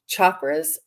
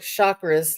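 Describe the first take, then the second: First: It begins with a 'ch' sound. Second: It begins with an 'sh' sound. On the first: "like Charlie" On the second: "like champagne"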